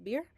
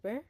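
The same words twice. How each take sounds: First: "beer" in English, long ee sound; "beer" with an English ee vowel. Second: "bear" in English, open eh vowel; "bear" with an English air vowel. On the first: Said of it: "si decimos beer". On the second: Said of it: "pero si decimos bear". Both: Shown as a demonstration.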